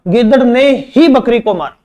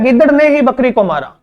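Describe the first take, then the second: First: ही landed firmly with a falling tune; teacher's emphasis on ही; stress on ही. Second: गिद्दड़ ने ही with ही pressed hard; stress on ने ही. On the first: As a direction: hit ही and let the line fall. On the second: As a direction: lean on ही after ने. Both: Shown as a demonstration. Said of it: "ये कह रहा है".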